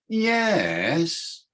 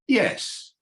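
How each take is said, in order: First: The pitch falls and then rises. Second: The pitch falls. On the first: The answer is doubtful or uncertain. "Means no. Or means I'm not sure" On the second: The answer is a clear yes. "With a falling tone means yes, I am"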